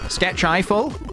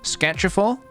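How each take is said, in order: First: The name ends sounding like 'Eiffel'. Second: The name ends sounding like 'full'. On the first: The speaker calls it right. "like the Eiffel Tower" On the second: The speaker calls it wrong. "you've pronounced my username wrong"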